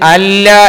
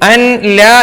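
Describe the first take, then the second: First: The n merges into a doubled l sound. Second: The n sound is pronounced before the l. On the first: "അല്ല എന്നും ... വായിക്കണം" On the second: "അൻ ല എന്നത്"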